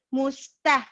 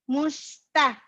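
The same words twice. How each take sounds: Both takes have the same delivery.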